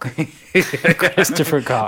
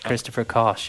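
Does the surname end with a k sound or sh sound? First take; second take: k sound; sh sound. First: The surname ends with a k sound. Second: The surname ends with an sh sound. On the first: This is the name as it would be read literally. "his name was Cock" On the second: This is how the author himself said his name. "that's how he pronounced it"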